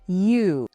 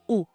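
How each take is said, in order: First: The vowel starts with a 'y' glide. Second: The vowel is a pure 'oo' sound. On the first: The speaker calls it wrong. "We'll want to avoid saying you, like in university" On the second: The speaker calls it right. "We just want the U, U, U sound"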